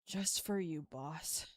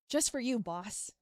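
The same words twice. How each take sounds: First: The tone sounds let down and disappointed. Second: The tone sounds warm and supportive. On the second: "just for supportive"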